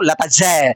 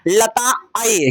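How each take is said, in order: First: The consonant after 'lata' sounds like j. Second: The consonant after 'lata' sounds like y. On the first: "Sanskrit में य को ज पढ़ा जाता है" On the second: "original में इसका शब्द है लताए"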